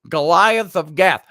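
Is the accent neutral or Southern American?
Neutral. It is said in the speaker's usual accent.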